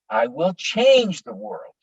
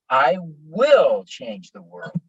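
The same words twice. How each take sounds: First: The word change is stressed. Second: The word will is stressed. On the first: "And with change" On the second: "Now, will"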